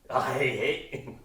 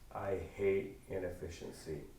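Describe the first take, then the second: First: It is said louder, with more force. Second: It is said in a calmer, plainer way.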